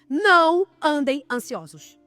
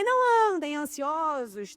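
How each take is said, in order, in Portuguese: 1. É dito como uma ordem firme, de comando. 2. É dito de forma hesitante, como uma leve sugestão. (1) "É algo que Jesus está mandando" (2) "Não é não andem ansiosos, talvez"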